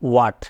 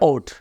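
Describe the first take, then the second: First: The word is said fully and unhurriedly. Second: The word is said quickly in a clipped form. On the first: "এটা উচ্চারণ হচ্ছে watt" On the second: "আরও স্পিডে বলে ওট"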